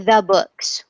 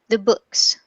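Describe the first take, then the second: First: The word 'the' has a full, stressed vowel. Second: The word 'the' has a reduced schwa vowel. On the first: The speaker calls it wrong. "usually we don't say the books" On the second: The speaker calls it right. "we say the books, the books. So books is stressed and the is unstressed"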